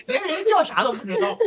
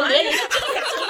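First: High laughing, near tears; laughing hard. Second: High laughing outburst. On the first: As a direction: crack up while repeating. Repeats it, laughing harder. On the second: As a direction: laugh through the words. Laughing at wrong airline name. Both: Real, not acted.

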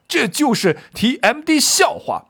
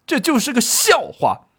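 First: High-pitched indignant curse; 季布骂人. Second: High, scornful acted rebuke; 季布怒斥. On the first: Acted. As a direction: swear it out with acted outrage. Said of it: "这应该还会加点骂字儿". (高声怒骂，加重脏字) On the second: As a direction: dismiss it indignantly, voice pitched up. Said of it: "唯独季布此时站出来怒斥道". (激愤斥责，高声不屑)

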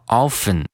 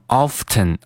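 First: "often" with no t, "offen"; silent T. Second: "often" with a clear t, "off-ten"; sounded T. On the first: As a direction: drop the t from "often". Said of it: "而是读成了often". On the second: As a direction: pronounce the t in "often". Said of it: "它没有读成often". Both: Shown as a demonstration.

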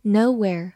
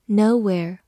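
No difference in how they are said.

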